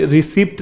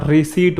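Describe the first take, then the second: First: रिसिप्ट with the p sounded; wrong pronunciation. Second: रिसीट with a silent p, said a little slower; right pronunciation. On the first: Teacher showing the common mispronunciation, रिसिप्ट with a p. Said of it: "नहीं होता". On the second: Teacher giving the correct pronunciation, रिसीट with silent p. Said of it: "होता है". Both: Shown as a demonstration.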